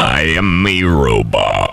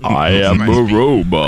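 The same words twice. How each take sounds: First: Slow, mechanical robot voice; lower, deliberate robot words; toy robot voice. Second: Slow, stiff robot voice; toy robot voice. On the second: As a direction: speak like a wind-up toy robot. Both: Pretend.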